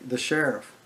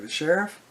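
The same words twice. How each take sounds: First: THE SHERIFF with a falling end; matter-of-fact statement. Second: SHERIFF rising high at the end; surprised echo question. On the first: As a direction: state "The sheriff." plainly, letting it drop. Friend announces who showed up. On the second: Teller echoes it in disbelief. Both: Retold or imitated.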